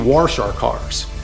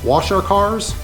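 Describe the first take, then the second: First: The word 'wash' is said in the local accent. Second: The word 'wash' is said in standard form. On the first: "we wash our cars. These are the accents" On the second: "we don't wash our cars"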